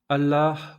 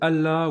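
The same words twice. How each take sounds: First: The final H is audible but the L is short. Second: It is said plainly, without final H or long L. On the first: "en prononçant le H" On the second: "vous sonnerez très français"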